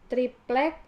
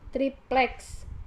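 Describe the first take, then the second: First: The word ends in a k sound. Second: An s sound is added at the end. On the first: The speaker calls it right. "kata triplek" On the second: The speaker calls it wrong. "penambahan fonem S"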